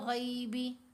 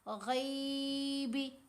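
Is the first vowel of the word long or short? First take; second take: short; long. First: The first vowel is kept short. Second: The first vowel is drawn out long. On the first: The speaker calls it right. "Normal आवाज़ में इसको पढ़ा, स्मूथ आवाज़ में पढ़ा" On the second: The speaker calls it wrong. "गैबी ऐसे नहीं पढ़ा"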